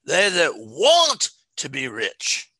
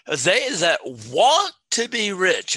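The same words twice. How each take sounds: First: They that WANT to be rich, WANT stretched and louder; stress on want again. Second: They that WANT to be rich, slow and loud on want; stress on want. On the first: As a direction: drag out WANT, slow. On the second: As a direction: lean hard on WANT, slowly. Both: Shown as a demonstration. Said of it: "I want to emphasize that word".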